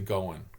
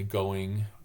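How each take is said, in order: First: The final -ing ending is reduced. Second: The final -ing ending is fully pronounced. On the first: It sounds like the native local dialect. The speaker calls it right. "The ings are never pronounced in the upper Midwest. We say going" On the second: It marks the speaker as an outsider. The speaker calls it wrong. "We don't say going"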